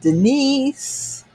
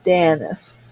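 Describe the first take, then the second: First: The name sounds like Denise. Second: The name sounds like Dennis with an a. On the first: The speaker calls it wrong. "People pronounce it all sorts of ways" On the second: The speaker calls it right. "It's like Dennis with an A"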